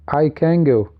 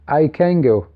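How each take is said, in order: First: The words run together rapidly with assimilated sounds. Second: The words run together rapidly with assimilated sounds.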